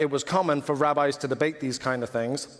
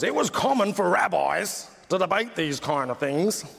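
First: It is said in the speaker's ordinary voice. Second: It is said in a put-on, imitated voice.

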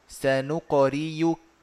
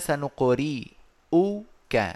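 First: The middle consonant is a y sound. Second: The middle consonant is a glottal stop. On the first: "يبدلها ياء مضمومة" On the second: "الهمزة مضمومة"

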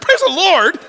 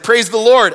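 First: It is said indignantly, as an offended question. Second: It is said sincerely, as plain thanks.

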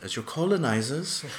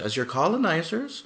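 First: It is said in a put-on British accent. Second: It is said in the speaker's plain accent. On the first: The speaker calls it right. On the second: The speaker calls it wrong.

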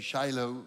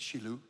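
First: Shiloh is said with the usual English pronunciation. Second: Shiloh is said with the Hebrew pronunciation. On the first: This is how it is commonly said. The speaker calls it wrong. "We say Shiloh" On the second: This is the original pronunciation. The speaker calls it right. "but it's Shiloh. ... that's the real pronunciation"

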